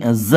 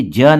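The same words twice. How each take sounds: First: ज said as a buzzed "zuh"; the correct take, ज voiced as z; ज as in the start of "zoo"; vibrating z sound. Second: ज said as "juh", with no buzz; the wrong take, ज as a hard j; ज as in "jug", not zuh; plain j sound. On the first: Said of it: "vibration आएगा बोलते वक्त". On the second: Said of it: "ये ज नहीं ज है". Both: Shown as a demonstration.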